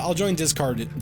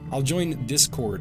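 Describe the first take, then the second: First: It is said in a thick put-on accent. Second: It is said in the speaker's normal accent.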